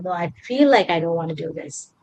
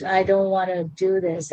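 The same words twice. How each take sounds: First: "I feel like I don't wanna do this" leaning on feel; stress on feel. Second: Said in the usual way. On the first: Shown as a demonstration. Retelling her own jet lag, stress on feel. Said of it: "Add the word feel and see how things change".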